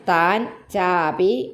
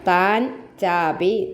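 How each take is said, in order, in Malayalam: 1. ആ രണ്ട് വാക്കുകളും വേറെവേറെയാണ്, ഒട്ടിക്കാതെ പറഞ്ഞിരിക്കുന്നു. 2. ആ രണ്ട് വാക്കുകളും വേറെവേറെയാണ്, ഒട്ടിക്കാതെ പറഞ്ഞിരിക്കുന്നു.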